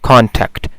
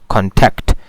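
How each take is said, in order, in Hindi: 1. Stress पहले syllable पर है। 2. स्ट्रेस दूसरे सिलेबल पर है। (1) "जब ये एज अ नाउन यूज़ होता है तो स्ट्रेस जो है वो फर्स्ट सिलेबल पे होती है" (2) "यानी मैं इस पे स्ट्रेस दूंगा"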